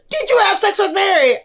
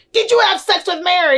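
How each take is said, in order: First: Even higher mock mom pressing the question; insistent prying mom. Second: Higher, fast mock mom grilling her son; prying mom. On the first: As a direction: push harder, like a mother who won't drop it. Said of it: "And he's like". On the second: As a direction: blurt it out like a nosy mother. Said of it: "she's like".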